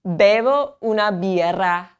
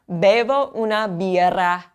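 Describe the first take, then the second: First: Bevo una birra again; BEH-voh OO-nah BEER-rah once more; repeat for class. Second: Bevo una birra, clear; BEH-voh OO-nah BEER-rah; teacher reading bevo una birra; model sentence. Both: Shown as a demonstration. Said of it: "Let's say it first".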